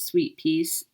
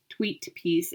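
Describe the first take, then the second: First: Said in the usual way. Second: Tweet said with a clear t in place of the s of sweet; a playful wordplay swap to Tweet; pun on tweet. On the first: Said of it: "Get it?". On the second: Shown as a demonstration. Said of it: "'Cause it says tweet up there".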